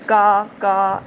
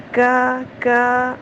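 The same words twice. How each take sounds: First: کا with a hard, clipped ک and no breath; hard kaf, no breath. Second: کا with a thin ک and breath escaping; soft breathy kaf. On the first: Teacher showing the wrong hard ک of کا. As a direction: hit the ک of کا hard without air. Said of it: "سخت ہٹ دیں گی". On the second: Teacher showing the correct breathy ک of کا. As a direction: breathe out through the ک of کا. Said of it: "ہمس رکھنی ہے". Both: Shown as a demonstration.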